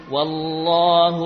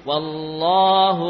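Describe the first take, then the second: No difference in how they are said.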